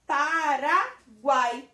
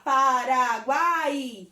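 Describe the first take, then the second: First: Paraguai with -guai kept as one syllable; spoken joined up. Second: Paraguai stretched loudly so the final A and I pull apart; exaggerated, loud, drawn-out Paraguai; wrongly separated vowels. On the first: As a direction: say Paraguai as PA-RA then an unbroken GUAI. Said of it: "Quando eu falo Paraguai". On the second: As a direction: drag out Paraguai as pa-ra-gu-A-I. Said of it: "Eu não vou falar Paraguai". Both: Shown as a demonstration.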